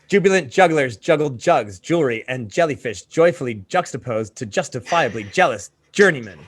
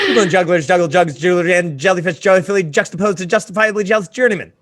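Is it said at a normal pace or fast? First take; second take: normal pace; fast. First: It is read at a normal pace. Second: It is said quickly.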